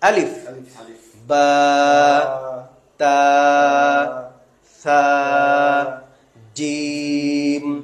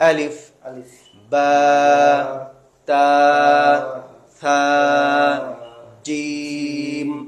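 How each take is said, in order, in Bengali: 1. প্রতিটি অক্ষরের নাম থামা দিয়ে আলাদা করা হয়। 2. প্রতিটি অক্ষরের নাম থামা দিয়ে আলাদা করা হয়।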